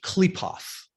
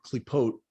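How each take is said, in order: First: The word ends with a th sound. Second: The word ends with a t sound. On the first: This is how Western occultism says it. "they pronounce it klipoth" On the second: This is how it is said in Hebrew. "we call it a klipa or a klipot in Hebrew"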